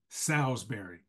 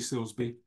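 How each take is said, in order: First: The surname sounds like full Salisbury. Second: The surname sounds like short Silsby. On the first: The speaker calls it right. "it's Salisbury" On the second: The speaker calls it wrong. "I mispronounced my baby sister's last name"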